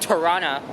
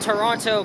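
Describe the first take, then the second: First: The second T sound is dropped entirely. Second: The second T sound is clearly pronounced. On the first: "I always pronounce it as silent" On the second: "I don't know why I pronounce Toronto with the second T"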